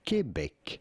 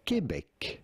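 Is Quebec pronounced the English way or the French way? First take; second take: French; French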